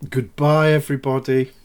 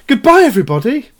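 First: It is said flatly, with little energy. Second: It is said with much more energy.

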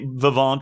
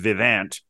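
First: The vowel is pronounced in a French way. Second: The vowel is pronounced in an English way. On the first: "definitely has a little bit of a French vowel action there" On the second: "rather than Vivant"

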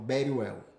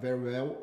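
First: It is said with a Spanish accent. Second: It is said without a Spanish accent.

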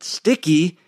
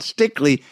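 First: No L sound comes before the final vowel. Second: An L sound comes before the final vowel. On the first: The speaker calls it wrong. "when I was pronouncing it" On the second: The speaker calls it right. "I know a lot more about Stickley"

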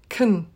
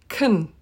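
First: The vowel is reduced to a short uh. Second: The vowel is reduced to a short uh.

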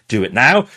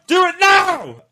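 First: The words are said at a soft volume. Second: The words are shouted at a loud volume. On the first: "each time I say it louder and louder and louder" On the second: "I shout that last one really loud"

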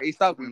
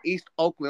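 First: The two words run together as one word. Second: The two words are said with a gap. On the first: The speaker calls it right. "It's one word" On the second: The speaker calls it wrong. "It's not East Oakland"

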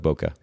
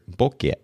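First: It is said with an American English pronunciation. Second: It is said with the original Japanese pronunciation. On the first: "So we keep it simple. We just call it Boca" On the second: "originally a Japanese word"

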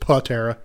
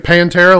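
First: No n sound comes before the t. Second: An n sound comes before the t. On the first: The speaker calls it right. "but I think it's just Patera" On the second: The speaker calls it wrong. "I think you're saying Pantera, like the band"

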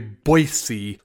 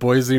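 First: The middle consonant is a soft s sound. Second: The middle consonant is a buzzing z sound. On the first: This is how local people say it. "Everyone says there's no Z in it" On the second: This is how an outsider says it. "I've called it Boise my whole life"

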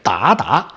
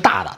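First: The syllables are said with a rising second tone. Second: The syllables are said without a rising second tone. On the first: An intimate term of address used in an erotic novel. "发音就是二声的" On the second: A respectful term for a father or an uncle. "他用的可不是大大"

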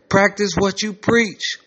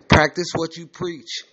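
First: The line is said with a louder, raised voice. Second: The line is said at a normal, calm volume.

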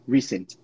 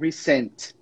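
First: The stress is on the first syllable. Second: The stress is on the second syllable. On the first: The speaker calls it right. "A ênfase a gente coloca na primeira, dessa aí" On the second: The speaker calls it wrong. "Mas lá, você soltou um recent"

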